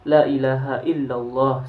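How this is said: The phrase runs through to the final word. The speaker calls it right. "harus sempurna"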